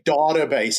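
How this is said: It is said the South African way. "South Africans also like to say database"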